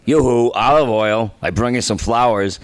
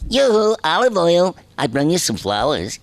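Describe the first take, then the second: First: It is said in a low voice. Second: It is said in a high voice.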